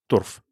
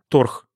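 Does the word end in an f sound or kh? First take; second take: f; kh. First: The word ends in an f sound. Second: The word ends in a kh sound.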